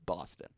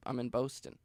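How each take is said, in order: First: "Boston" with an open ah, low and soft; mock correction of Boston. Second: "Boston" with a rounded oh in the first syllable; outsider's Boston pronunciation. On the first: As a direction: correct it quietly to BAH-stun, "Boston". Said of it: "They don't go". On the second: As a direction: say "Boston" as BOH-stun. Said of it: "I have a different accent". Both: Shown as a demonstration.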